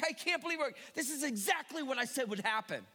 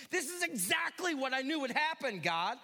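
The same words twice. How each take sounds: First: Mild mock exasperation, pitched up; ticked off. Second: A touch of indignant protest, a bit higher; mild mock complaint to God; ticked off. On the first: Jonah ticked off at God, mildly exasperated. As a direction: grumble it, half-hearted indignation. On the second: Jonah grumbling at God, mildly indignant. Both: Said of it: "he's still ticked".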